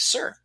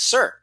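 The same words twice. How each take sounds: First: It is said softly, at normal volume. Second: It is said a little louder.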